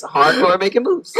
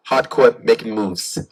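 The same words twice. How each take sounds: First: Laughing repeat. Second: Hardcore tough line. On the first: Real, not acted. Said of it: "there it is". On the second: Shown as a demonstration. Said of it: "can you say it".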